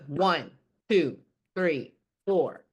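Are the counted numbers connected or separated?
separated. The numbers are cut apart with gaps. The speaker calls it wrong. "Instead of"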